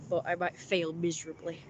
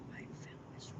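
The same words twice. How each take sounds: First: Said in the usual way. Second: Barely voiced, very soft whisper; whispered aside. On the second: Real, not acted. Streamer doubting the coming imitation, whispered aside.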